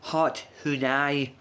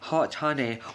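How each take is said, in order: First: Honey is pronounced in a playful, distorted way. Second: Honey is pronounced the ordinary way.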